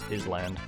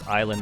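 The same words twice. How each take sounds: First: The s in the word is clearly pronounced. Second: The s in the word is silent.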